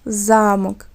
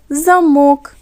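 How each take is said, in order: First: The stress is on the first syllable. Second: The stress is on the second syllable. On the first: It names an old fortified building, a castle. "Слово – це старовинна будова з гостряками мурованих веж" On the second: It names a device that locks something. "якщо ми змінимо наголос, то буде замок"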